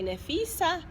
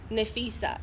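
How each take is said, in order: First: The pitch rises at the end. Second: The pitch does not rise at the end. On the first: It works as a friendly hello. The speaker calls it right. "you would need to rise at the end of it" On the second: It does not sound like a greeting. The speaker calls it wrong. "your intonation doesn't really sound like a hello"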